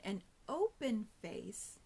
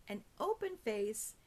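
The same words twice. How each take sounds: First: Slowed-down demo, stretched out; slow motion. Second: Said in the usual way. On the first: Shown as a demonstration. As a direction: draw each word out slowly. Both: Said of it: "Let me do it in slow motion".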